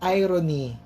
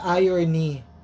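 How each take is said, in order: First: It is not said like 'iron' plus an ending. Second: It is said like 'iron' plus an ending. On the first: This is the figure of speech. The speaker calls it right. "it pronounced as irony" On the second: This sounds like something to do with a flat iron. The speaker calls it wrong. "Hindi po siya irony"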